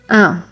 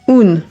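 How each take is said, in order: First: The vowel is nasal. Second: The vowel is oral, with an n sound. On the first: The speaker calls it right. "you pronounce it with the nasal sound" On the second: The speaker calls it wrong. "common for learners to say un ... it sounds like Spanish"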